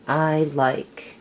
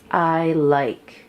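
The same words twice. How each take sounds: The two takes are said the same way.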